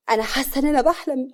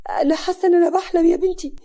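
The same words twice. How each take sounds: First: Stunned. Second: Stunned, rising panic. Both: A narrator's reading. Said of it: "سعاد بصدمة".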